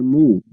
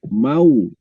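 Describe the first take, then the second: First: The vowel is a plain u. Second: The vowel is the diphthong au. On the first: The speaker calls it wrong. "bukan mu" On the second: The speaker calls it right.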